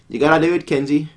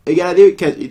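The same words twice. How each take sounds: First: Said in the usual way. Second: Louder, higher insistence; pushier urging. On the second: Acted. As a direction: press him harder. Urging Kenji again, louder.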